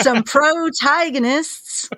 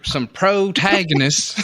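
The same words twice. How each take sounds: First: Put-on slow, higher old prospector drawl. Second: Put-on slow drawled old prospector voice. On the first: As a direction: drag out protagonists like an old miner. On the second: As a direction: stretch it out like a grizzled miner. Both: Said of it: "You just sound like an old prospector".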